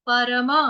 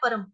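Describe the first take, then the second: First: It is said the Sanskrit way. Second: It is said the Hindi way. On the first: "यहाँ पर संस्कृत में हमको कैसे पढ़ना है?" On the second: "हिंदी में हम पढ़ते हैं परम"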